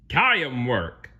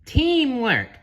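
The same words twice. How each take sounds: First: "Tie 'em work" with "team" as "tie-em"; mispronounced teamwork. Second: "Teamwork" high and loud, long "tee"; correct pronunciation. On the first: Plankton misreads teamwork again. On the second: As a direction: repeat "Teamwork" as a louder correction. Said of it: "gently corrected him". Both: Acted.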